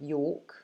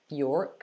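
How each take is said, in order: First: The R sound is soft, barely pronounced. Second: The R sound is strongly pronounced. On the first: "But I would say York" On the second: "If you're somebody who pronounces the R strongly, like Americans do, you would say York"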